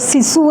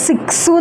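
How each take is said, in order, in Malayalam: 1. നടുഭാഗം സാധാരണ s ശബ്ദത്തോടെയാണ് പറയുന്നത്. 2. നടുഭാഗം ks ശബ്ദത്തോടെയാണ് പറയുന്നത്. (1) "ഞാനൊരു ഫ്രഞ്ച് മാഷോട് ചോദിച്ചപ്പോൾ സിസു എന്നാണ് എനിക്ക് പറഞ്ഞു തന്നിരുന്നത്" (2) "ഇപ്പോൾ എല്ലാവരും സിക്സു എന്നാണ് അതിനെ പറയുന്നത്"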